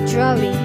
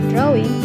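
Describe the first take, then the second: First: It begins with a j-like sound. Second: It begins with a plain d sound. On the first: "peserta mengucapnya sebagai drawing. Bunyi D berubah menjadi J" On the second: "yang seharusnya diucapkan sebagai drawing"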